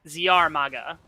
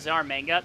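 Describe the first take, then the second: First: The last part has no n before the g. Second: The last part has an n before the g. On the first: The speaker calls it right. "There's no N in his name" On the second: The speaker calls it wrong. "I've been misreading this because I thought it was a Z R manga"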